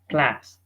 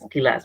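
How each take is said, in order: First: The opening consonants are said together without a vowel. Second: An extra vowel splits the opening consonant cluster. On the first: The speaker calls it right. "They have to read it as class" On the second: The speaker calls it wrong. "the Egyptians read the word class as kilas"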